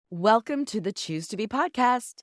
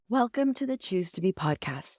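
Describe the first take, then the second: First: It is delivered in a showy game-show-host style. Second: It is delivered in a formal newscaster style. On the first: "why did I say it like that? like a game show" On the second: "I feel like a newscaster"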